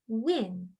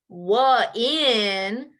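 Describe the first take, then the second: First: The word is said smoothly as one. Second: An extra wah sound splits the word. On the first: The speaker calls it right. "it's win" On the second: The speaker calls it wrong. "you don't say wah in for win"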